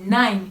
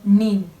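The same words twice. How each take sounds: First: The vowel sounds like 'eye'. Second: The vowel sounds like 'ee'. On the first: The speaker calls it right. "neuf c'est nine" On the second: The speaker calls it wrong. "et non nine"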